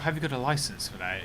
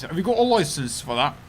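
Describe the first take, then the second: First: Said in the usual way. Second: Put-on louder British accent with rising question. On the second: Streamer redoing the licence question, put-on British accent. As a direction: challenge them in a hammed-up British accent. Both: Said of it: "I'm not very good at accents".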